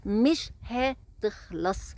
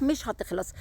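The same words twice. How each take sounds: First: مش هتخلص drawn out very slowly, word by word. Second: Said in the usual way. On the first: Shown as a demonstration. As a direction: stretch مش هتخلص out slowly for weight. (مش هتخلص ببطء شديد ومط)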